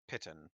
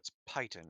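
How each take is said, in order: First: The first syllable has a short 'i' sound. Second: The first syllable has a long 'eye' sound. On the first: The speaker calls it right. "it's P I T O N" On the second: The speaker calls it wrong. "why are you putting so much emphasis on the I?"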